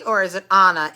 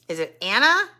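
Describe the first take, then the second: First: Anna said with an open ah, AH-na; first vowel of "Anna" as in "father". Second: Anna said with the a of cat, AN-na; first vowel of "Anna" as in "cat"; Anna with a flat a. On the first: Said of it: "A N A?". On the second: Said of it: "A N N A". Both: Shown as a demonstration.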